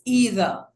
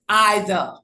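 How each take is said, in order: First: The word is said with an American pronunciation. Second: The word is said with a British pronunciation. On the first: "This is the American translation or pronunciation" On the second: "The British pronunciation would be"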